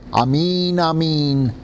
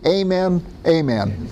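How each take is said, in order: First: It is said with a Hebrew pronunciation. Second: It is said with a Tennessee Southern accent. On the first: "But in Hebrew, this is what he said" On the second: "Or in Tennessee"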